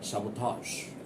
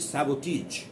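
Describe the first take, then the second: First: The ending does not sound like 'each'. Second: The ending sounds like 'each'. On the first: The speaker calls it right. "The correct pronunciation of that is" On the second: The speaker calls it wrong. "Do not pronounce it"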